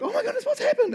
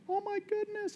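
First: High, laughing panic; retold panic, half laughing; panicked. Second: High, hushed gasp of wonder; imitating being dazzled; mock awe. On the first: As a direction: freak out that the wife is gone. Wife missing from foyer. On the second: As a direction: swoon over the fancy hospital. Mock awe at flash hospital.

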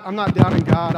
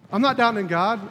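First: I'm not "doubting" God, with "doubting" hit loud; stress on doubting. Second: I'm "not" doubting God, with "not" stressed; a calm restatement that weights "not". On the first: Retold or imitated. Pastor insisting to his guys, "doubting" punched loud. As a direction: lean hard on "doubting", louder than the rest. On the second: Real, not acted. Pastor restating to the congregation, "not" stressed.

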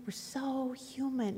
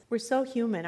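First: "We're so human" dropped soft and slow, leaning on "so"; hushed, rueful repeat. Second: Said in the usual way. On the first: Shown as a demonstration. Preacher admitting human weakness to the congregation, soft and slow. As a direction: let "We're so human" fall away quietly.

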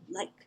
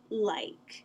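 First: Said in the usual way. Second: "like" with a falling mainland tune. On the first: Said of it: "Why do I say, like". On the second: Shown as a demonstration. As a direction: say "like" the mainland way, dropping at the end. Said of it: "They say".

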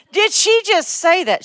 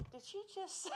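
First: High, loud mock-shocked question, drawn out; incredulous outcry. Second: Tiny, high, barely audible mock-shocked voice; stunned disbelief. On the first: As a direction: blurt out the stunned thought at full voice. Repeats stunned thought out loud. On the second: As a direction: act out a stunned thought in a faint squeak. Acts out her stunned thought.

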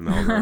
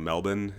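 First: Said in the usual way. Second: Melbourne said as "MEL-bin"; local pronunciation. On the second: Shown as a demonstration. Asking friend about adopting local speech, local pronunciation. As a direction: say Melbourne with a swallowed second syllable, no R. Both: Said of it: "saying Melbourne instead of Melbourne".

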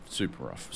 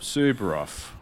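First: Low, soft super rough; quiet grumbling super rough; low mock groan. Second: Said in the usual way. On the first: Shown as a demonstration.

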